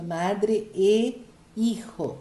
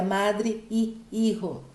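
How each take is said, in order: First: "madre e hijo" slowly, with clear E before hijo; correct linking E. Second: "madre e hijo" with the E said as ee; repeated I sound. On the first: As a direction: link "madre" to "hijo" with an eh sound, drawn out. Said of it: "não posso usar o y". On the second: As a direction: double the ee sound going into "hijo". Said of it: "Não posso repetir, repetir sons". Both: Shown as a demonstration.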